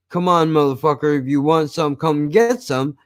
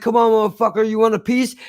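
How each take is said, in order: First: Said in the usual way. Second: Mock thug taunt pitched high; lightly voiced jeering tough guy. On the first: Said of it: "Before the guy could even finish saying". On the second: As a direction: ham up a cocky goon picking a fight. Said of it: "they're like".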